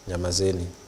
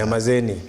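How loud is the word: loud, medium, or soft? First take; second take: soft; medium. First: It is said at a soft, normal volume. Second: It is said a bit louder.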